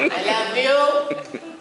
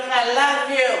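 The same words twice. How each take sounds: First: Drawn-out, high, laughing "I love you"; slow happy drunk. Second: High gushing tipsy "I love you"; sloppy drunk affection; happy drunk. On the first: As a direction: stretch it out like a sappy drunk. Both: Retold or imitated. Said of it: "I'm one of them happy drunks".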